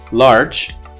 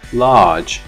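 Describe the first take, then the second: First: The r after the vowel is pronounced. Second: The r after the vowel is dropped.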